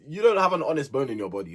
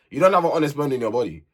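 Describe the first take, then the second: First: Said in the usual way. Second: Faster and punchier, driving it home; emphatic repeat. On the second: Real, not acted. Vlogger calling out Casey, repeats it fast and punchy. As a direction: hammer the accusation again.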